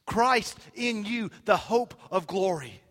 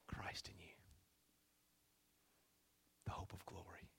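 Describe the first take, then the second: First: Loud, high preacher's cry, slow at first; triumphant proclamation. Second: Very soft, low, nearly whispered verse; hushed awe. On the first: Preacher climaxing on Paul's verse, loud and triumphant. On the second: Preacher repeating Paul's verse to himself and church, hushed. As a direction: breathe the verse out with reverence. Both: Real, not acted.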